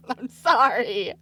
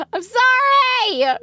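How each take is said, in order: First: Said in the usual way. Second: Squealed high through real laughter; laughing apology. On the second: Real, not acted. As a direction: apologize while cracking up, high and louder. Cracking up apologizing.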